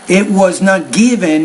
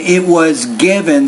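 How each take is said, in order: First: The first vowel sound is distorted. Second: The first vowel sound is standard. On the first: The speaker calls it wrong. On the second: The speaker calls it right.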